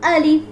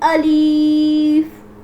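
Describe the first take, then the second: First: The vowel is kept short. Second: The vowel is stretched out long. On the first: The speaker calls it right. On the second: The speaker calls it wrong.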